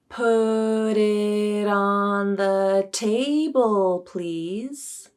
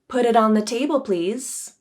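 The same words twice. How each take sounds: First: The sentence is spoken slowly. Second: The sentence is spoken at a normal pace. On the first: "and then I'll say it slowly" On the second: "I'll say the sentence at my normal pace"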